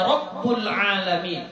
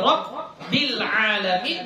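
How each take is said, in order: First: The vowel after the b is u. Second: The vowel after the b is i. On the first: The speaker calls it wrong. "atau dibacanya Rabbul alamin" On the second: The speaker calls it right. "seperti Rabbil alamin"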